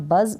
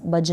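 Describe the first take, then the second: First: बज pronounced "buzz"; correct z sound. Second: बज pronounced "budge"; wrong j sound. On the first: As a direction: end बज with a clear z. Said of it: "तो इसको पढ़ें आप बज". (बज के अंत में ज़ बोलें) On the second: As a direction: end बज with a j sound. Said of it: "बज ना पढ़ें". (बज के अंत में ज बोलें) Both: Shown as a demonstration.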